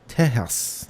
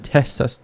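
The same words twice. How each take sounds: First: It is said with a Spanish pronunciation. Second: It is said with an English pronunciation.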